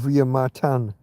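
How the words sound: The name is said with a Spanish pronunciation.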